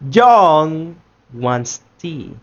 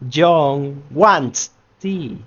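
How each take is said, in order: First: The word John carries the stress. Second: The word wants carries the stress. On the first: "In the first one, we are making emphasis in John" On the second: "In the second one, we are making emphasis in wants"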